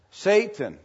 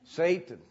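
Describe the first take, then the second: First: Satan said louder and higher, then falling; emphasis on Satan. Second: Said in the usual way. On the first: Shown as a demonstration. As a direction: lean hard on Satan, with a falling end. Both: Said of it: "The emphasis of the word Satan".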